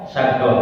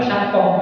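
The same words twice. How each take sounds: First: Syakoh with qaf turned to a g-like ghin; Yemeni syakoh. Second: Syakoh with a hard Arabic qaf; wrong syakoh. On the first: Teacher showing how Yemeni scholars say it, ghin sound. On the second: Teacher showing students the wrong way, qaf in syakoh. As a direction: say syakoh the way it should not be. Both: Shown as a demonstration. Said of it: "bukan syakoh".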